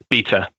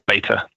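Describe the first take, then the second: First: The word is said in a non-American way. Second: The word is said the American way.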